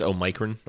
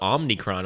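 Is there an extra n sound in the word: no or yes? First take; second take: no; yes. First: The word is said without an n after om. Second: The word is said with an n after om. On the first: The speaker calls it right. "I think it's Omicron" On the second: The speaker calls it wrong. "where are you getting that second N from"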